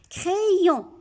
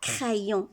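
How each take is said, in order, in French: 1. La première syllabe se prononce 'cré'. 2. La première syllabe se prononce 'cra'. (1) "Il complète le son E. Ici, cré. Il fait le son I pour la deuxième" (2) "On ne dit pas crayon"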